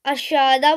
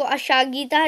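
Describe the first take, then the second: First: अशादा said as a-sha-da, with no g sound; correct pronunciation. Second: अशागीता, the wrong way with a g sound in the middle; wrong pronunciation. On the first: Teacher showing viewers the right reading अशादा, with the g left silent. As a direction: pronounce अशादा cleanly as three syllables, a-sha-da. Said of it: "इसको अशादा बोलेंगे". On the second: Teacher showing viewers the wrong reading अशागीता, with the g pronounced. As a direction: say अशागीता as the mistake to avoid, with a hard g. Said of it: "इसको अशागीता नहीं बोलेंगे". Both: Shown as a demonstration.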